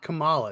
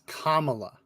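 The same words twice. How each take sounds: First: The start does not sound like 'comma'. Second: The start sounds like the word 'comma'. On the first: The speaker calls it wrong. "Not Kamala" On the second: The speaker calls it right. "it's Kamala"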